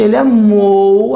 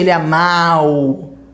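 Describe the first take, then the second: First: The ending has a closed 'o' before 'u'. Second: The ending has an open 'a' before 'u'. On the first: The speaker calls it right. "a boca já vai fechando, para o som fechar" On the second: The speaker calls it wrong. "é muito difícil para o falante fazer"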